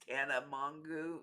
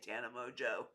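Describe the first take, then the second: First: The surname ends with a hard 'goo' sound. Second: The surname ends with a soft 'zho' sound. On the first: This is how other people say it. "But I think it's" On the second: This is the speaker's own usual pronunciation. "I just say"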